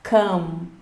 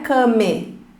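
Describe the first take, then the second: First: The word ends on a consonant sound. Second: A vowel sound is heard at the end. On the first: The speaker calls it right. "não ouvimos o som da letra E quando pronunciamos" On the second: The speaker calls it wrong. "Não é come"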